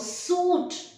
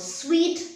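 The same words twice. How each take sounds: First: The word is pronounced like 'suit'. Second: The word is pronounced like 'sweet'. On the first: The speaker calls it wrong. "Uh-uh, that is wrong. Suit is, you know, when you wear the formal coat and the trousers" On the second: The speaker calls it right. "This one is sweet, not suit"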